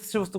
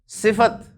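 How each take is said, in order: First: The f runs straight into the t. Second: A vowel is heard between the f and t. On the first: The speaker calls it wrong. "सिफ्त कोई नहीं है" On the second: The speaker calls it right. "लंबा करके ही बोलेंगे ना ते को"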